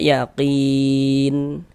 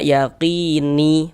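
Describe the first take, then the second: First: The word ends on a silent final n. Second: The word ends with an added i vowel. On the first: The speaker calls it right. "berhenti kita di huruf nun, kita baca yakin" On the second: The speaker calls it wrong. "Jangan dibaca yakini baru berhenti"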